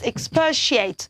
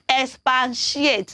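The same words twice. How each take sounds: First: No n sound is heard in the middle. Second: An n sound is heard in the middle. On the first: The speaker calls it right. "It's expatiate" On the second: The speaker calls it wrong. "don't think it is expatiate. That's wrong"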